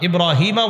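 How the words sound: The word ends in a vowel and flows on. "আবার ইব্রাহিমা ওয়া আলা আলি ইব্রাহিম এভাবে পড়তে পারবেন"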